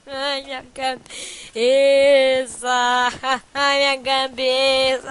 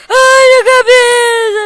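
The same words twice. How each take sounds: First: Slow drawn-out moan. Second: Sudden loud, higher cry of alarm; panicked yell. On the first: Player lamenting his block head, slow drawn-out moan. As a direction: stretch the words out, very slow. Same line repeated, drawn out. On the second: Player startled by his block head, loud panicked yell. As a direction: blurt it out in shock, loud and high. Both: Real, not acted.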